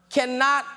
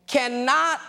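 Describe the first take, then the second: No difference in how they are said.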